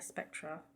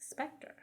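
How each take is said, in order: First: The word ends with an 'ah' vowel. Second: The word ends with an 'er' sound. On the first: The speaker calls it wrong. "It's not a Spectra" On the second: The speaker calls it right. "It's the Spectre"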